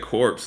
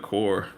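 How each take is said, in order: First: The word ends with a ps sound. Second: The word ends without a ps sound. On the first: The speaker calls it wrong. "he said corpse instead of core" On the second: The speaker calls it right. "instead of core"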